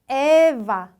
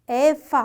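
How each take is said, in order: First: The middle consonant is a voiced v sound. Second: The middle consonant is a voiceless f sound. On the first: The speaker calls it right. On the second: The speaker calls it wrong.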